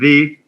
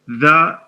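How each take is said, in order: First: It is said in its before-vowel form. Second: It is said in its before-consonant form. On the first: "before vowel sounds" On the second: "before consonant sounds"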